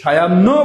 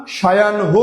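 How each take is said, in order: First: সায়াহ্ন as sha-yan-no, no h; common mispronunciation. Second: সায়াহ্ন as sha-yan-ho, h sounded; correct pronunciation. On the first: Teacher showing students what not to say, common mispronunciation. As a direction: double the n in সায়াহ্ন. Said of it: "সায়াহ্ন বলবো না". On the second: Teacher showing students what to say, correct pronunciation. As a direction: end সায়াহ্ন on a clear n-ho. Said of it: "সায়াহ্ন বলবো". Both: Shown as a demonstration.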